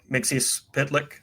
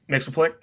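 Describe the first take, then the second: First: The name is said as more syllables. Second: The name is said as three syllables. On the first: This is the other accepted form. The speaker calls it right. "pronounced the other way" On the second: This is the form from an old cartoon. The speaker calls it wrong. "I started with Super Friends"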